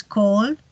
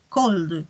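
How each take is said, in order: First: Said in the usual way. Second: "cold" falling, with a soft d released at the end; soft final D. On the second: Shown as a demonstration. Teacher contrasts base and past, "cold" with soft final D. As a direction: let "cold" close on a gentle D. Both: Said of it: "terminar como una D más suave".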